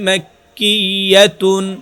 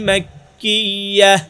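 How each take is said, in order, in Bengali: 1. শব্দটি পূর্ণ '-tun' দিয়ে শেষ হয়। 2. শব্দটি সাকিন '-h' দিয়ে শেষ হয়।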